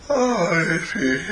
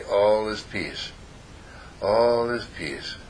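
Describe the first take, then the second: First: Said through a yawn, higher and slow. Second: Slow, soft, drawn-out mantra; slow calm affirmation. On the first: So relaxed he yawns the mantra, yawning. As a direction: stretch the words out in a big yawn. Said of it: "And I'm yawning". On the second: After breathing out, saying slowly to himself, calm mantra. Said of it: "and I say". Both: Shown as a demonstration.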